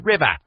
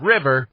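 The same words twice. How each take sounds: First: The final R is replaced by an ah sound. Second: The final R sound is clearly pronounced. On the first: "Replace the R at the end of a word with an ah" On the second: "instead of river"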